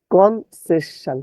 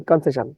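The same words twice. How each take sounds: First: "কনসেশন" slowly, syllable by syllable; distorted spelling pronunciation. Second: Said in the usual way. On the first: Shown as a demonstration. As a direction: stretch "কনসেশন" into separate syllables. ("কনসেশন" ধীরে, ভেঙে ভেঙে উচ্চারণ) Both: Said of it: "বিকৃত উচ্চারণ করবেন".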